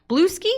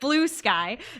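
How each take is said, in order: First: The ending sounds like 'skee', as in Brewski. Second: The ending sounds like the word 'sky'. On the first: The speaker calls it wrong. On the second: The speaker calls it right.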